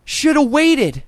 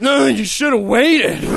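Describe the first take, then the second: First: Mock smug clerk. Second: Slow, dismissive clerk voice; lightly voiced snotty store kid; mock smug clerk. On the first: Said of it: "He said". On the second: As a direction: drag it out like a smug salesman. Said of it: "Don't be like".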